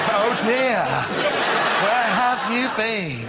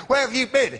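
First: High, slow, laughing mock-gentle teacher; overly sweet teacher's welcome, half laughing; too-soft teacher. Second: High, sharp teacher demand; mock furious. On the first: Shown as a demonstration. A teacher to a late pupil, mock-gentle and high. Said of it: "No, it wasn't right". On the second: A teacher demanding where the pupil was, high and sharp. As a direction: snap it high at the late kid. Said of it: "I was furious".

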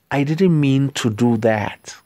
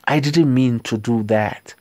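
First: Said in the usual way. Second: Whispered, no voice at all; hushed whispered apology. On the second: Shown as a demonstration. Teacher repeats phrase in whisper.

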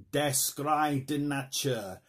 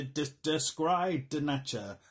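First: Slow, careful mock German accent. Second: Said in the usual way. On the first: Shown as a demonstration. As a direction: spell out Der Schrei der Natur in a German accent. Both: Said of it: "That is not a German accent".

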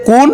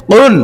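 First: কুন with an ordinary k; thin KOON, front of mouth; light kun. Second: Thick, forceful QOON; heavy qun. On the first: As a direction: say কুন with a plain k. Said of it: "এটা হচ্ছে". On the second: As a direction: punch কুন from the back of the tongue. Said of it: "আর এটা হচ্ছে". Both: Shown as a demonstration.

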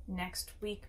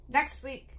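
First: Said in the usual way. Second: "next week" repeated higher and more forcefully; emphatic avowal. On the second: A narrator's reading. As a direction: hit "next week" hard and high, as a vow. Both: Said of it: "his violent avowals".

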